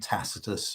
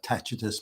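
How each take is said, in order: First: The middle consonant is a soft s sound. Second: The middle consonant is a ch sound. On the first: This is the modern pronunciation. "the modern pronunciation" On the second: This is the Italian pronunciation. "their pronoun- pronunciation of the C is a ch"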